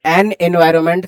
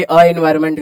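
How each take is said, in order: First: "एन" with its n before the vowel of environment; correct article. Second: Bare vowel "अ" before environment, no n; wrong article. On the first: Teacher giving students the right form, एन environment with the n sounded. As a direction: link एन into environment with a clear n. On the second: Teacher showing students the form to avoid, अ environment without the n. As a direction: say अ then environment with two vowels meeting. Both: Shown as a demonstration. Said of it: "ना कि अ environment करेंगे".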